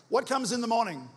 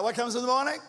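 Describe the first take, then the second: First: "What comes in the morning?" asked high with falling end; prompting question. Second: "what comes in the morning?" quick, with rising end; insistent prompt. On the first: Preacher prompts congregation to answer. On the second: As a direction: push the crowd, lifting "morning" upward. Asks again for a bigger answer. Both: Real, not acted.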